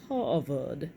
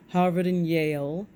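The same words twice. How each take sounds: First: British accent. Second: Said in the usual way. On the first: Shown as a demonstration. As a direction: say Harvard like a posh Brit, ah-vad. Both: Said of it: "you've gotta say that with a British accent".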